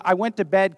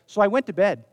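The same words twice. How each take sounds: First: "bed" with a rising, unfinished tune; comma intonation. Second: "bed" with a falling, final tune; full stop intonation. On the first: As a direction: leave "bed" hanging upward, as if more follows. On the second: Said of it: "really strange if we just in a sentence said". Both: Shown as a demonstration.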